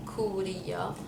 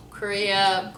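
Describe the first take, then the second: First: Korea as soft "koo-ree-ya"; Lebanese pronunciation. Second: Korea in an American accent. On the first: Repeating the Lebanese name, soft "koo-ree-ya" for Korea. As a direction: softly say Korea with "oo" and tapped R. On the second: Announcing it to viewers, American accent. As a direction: say Korea the English way. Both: Shown as a demonstration. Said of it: "say states and countries".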